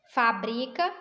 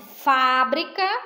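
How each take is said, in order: First: The stress is on the second syllable. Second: The stress is on the first syllable.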